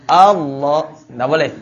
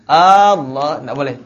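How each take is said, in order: No difference in how they are said.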